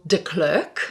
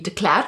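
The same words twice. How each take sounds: First: The name is said in an English way. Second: The name is said in a South African way. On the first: "my married name is [name]" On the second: "Which I think in South Africa would be de Klerk"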